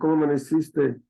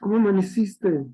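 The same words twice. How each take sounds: First: It is said seriously and with indifference. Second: It is said warmly and affectionately. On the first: The speaker no longer cares much. "¿Cómo amaneciste con seriedad, indiferencia?" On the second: The speaker cares about the other person. "¿Cómo amaneciste con cariño?"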